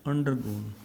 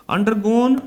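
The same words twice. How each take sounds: First: Said in the usual way. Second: undergone called out high and loud, rising at the end; dictating undergone to the class, raised and rising; announcing the word. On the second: Shown as a demonstration.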